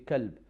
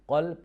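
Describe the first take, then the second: First: It starts with a front k sound. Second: It starts with a deep uvular q sound.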